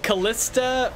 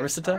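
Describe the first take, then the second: First: The middle consonant is a clear L sound. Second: The middle consonant sounds partly like an R. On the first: "I think it's like like like Callista" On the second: "the L sort of becomes like an R a little bit"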